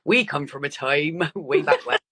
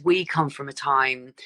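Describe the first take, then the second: First: Jokey put-on Dorset burr with a laugh; Dorset accent. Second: Said in the usual way. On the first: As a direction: slip playfully into a Dorset accent. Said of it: "I don't know why that requires, like, a Dorset accent". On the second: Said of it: "like, a Dorset accent".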